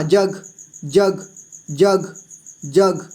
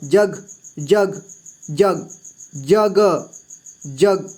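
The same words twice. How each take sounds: First: जग with ज hit hard and ग softened; जग, ज strong and ग weak; stress on ज. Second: जग with ग dropping lower and softer; जग with a weak, trailing ग; soft final ग. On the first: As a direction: lean on the ज, let the ग fall away. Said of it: "ज का जोर दे करके ... ग का थोड़ा धीमा". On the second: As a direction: let the ग of जग fade, low and light. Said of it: "ग का साउंड कम आ रहा है". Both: Shown as a demonstration.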